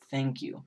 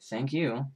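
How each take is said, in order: First: It is said sincerely. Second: It is said angrily.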